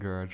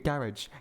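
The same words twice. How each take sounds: First: Garage is said with a non-British pronunciation. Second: Garage is said with a British pronunciation. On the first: The speaker calls it wrong. "I mispronounced garage" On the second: The speaker calls it right. "Your garage"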